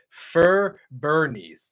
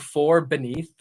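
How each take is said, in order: First: The first word has the vowel of 'fur'. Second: The first word has the vowel of 'for'. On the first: The speaker calls it wrong. "I say fur beneath" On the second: The speaker calls it right. "Instead of saying for beneath"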